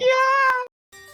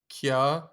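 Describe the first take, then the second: First: It is said loudly with lots of energy. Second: It is said flatly, without much energy.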